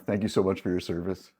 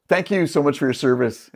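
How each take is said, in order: First: Quiet heartfelt thanks to soldiers; sincere thanks. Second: Said in the usual way. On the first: Real, not acted. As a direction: lower and much softer, sincere.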